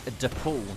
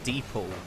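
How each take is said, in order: First: The first vowel is a soft 'eh' sound. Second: The first vowel is an 'ee' sound. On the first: The speaker calls it right. "I have just been informed that it's DePaul" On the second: The speaker calls it wrong. "not DePaul"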